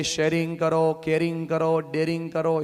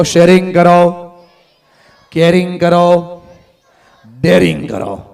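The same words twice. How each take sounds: First: Softer, calmer repeat of sharing કરો. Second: Loud, slow chant of sharing કરો; said with force. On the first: Speaker repeats the words to the audience, softer. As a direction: bring it down, just say it plainly. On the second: Speaker leads the audience, loud and slow. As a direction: call each word out slowly and loudly. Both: Shown as a demonstration. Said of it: "જોશથી બોલો".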